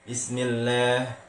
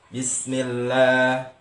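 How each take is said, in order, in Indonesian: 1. Vokal terakhir condong ke bunyi e. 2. Vokal terakhir adalah bunyi a terbuka yang jelas. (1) "Huruf yang berfathah dibaca eh, miring ke E gitu" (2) "la, bukan le"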